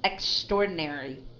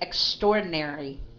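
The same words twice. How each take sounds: The two takes are said the same way.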